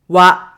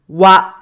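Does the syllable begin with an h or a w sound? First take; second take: w; w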